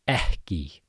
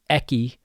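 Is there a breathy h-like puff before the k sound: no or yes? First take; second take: yes; no. First: A breathy h-like puff comes before the k. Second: The k sound has no breathy puff before it. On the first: The speaker calls it right. "there's also a pre-aspiration" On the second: The speaker calls it wrong. "it's not ekki"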